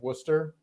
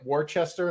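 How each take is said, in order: First: It is pronounced the way locals say it. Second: It is pronounced the way an outsider would. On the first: The speaker is from New England. The speaker calls it right. "instead of" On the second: The speaker is not from New England. The speaker calls it wrong. "somebody that's not from New England"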